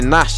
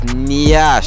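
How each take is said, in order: First: The n goes straight into the vowel. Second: A y glide follows the n. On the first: The speaker calls it wrong. "Why does everyone say Nash?" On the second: The speaker calls it right. "It's Nyash"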